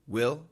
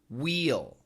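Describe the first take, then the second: First: The vowel is quick and reduced. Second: The vowel is full and clearly pronounced. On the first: "when we say it quickly, it usually sounds like will" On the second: "If we contract, it sounds like we'll"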